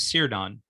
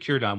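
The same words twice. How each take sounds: First: The name begins with a soft S sound. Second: The name begins with a hard K sound. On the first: The speaker calls it wrong. "You might look at that and want to pronounce it as Círdan" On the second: The speaker calls it right. "But it's actually Círdan. ... it's pronounced as a hard, as a K sound"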